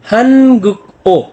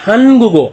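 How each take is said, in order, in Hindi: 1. अक्षर अलग-अलग बोले जाते हैं, जैसे लिखे हैं। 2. व्यंजन अगले अक्षर में जुड़ जाता है।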